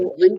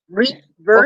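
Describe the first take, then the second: First: It is said in a British accent. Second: It is said in an American accent.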